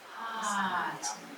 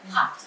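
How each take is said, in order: First: The sounds are drawn out and blended slowly. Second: The word is said quickly at normal speed. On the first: "So you flow it" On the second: "and say it fast"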